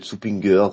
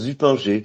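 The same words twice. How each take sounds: First: The name is said with German pronunciation. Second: The name is said with French pronunciation. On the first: This is the original Swiss form of the name. "c'est suisse d'origine" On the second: This is the everyday, Frenchified form of the name. "tu dis ça à la française"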